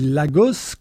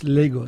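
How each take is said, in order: First: It is read as written, the French way. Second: It is pronounced the English way. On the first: "ça s'écrit Lagos, comme au Portugal" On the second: "mais ça se prononce Lagos"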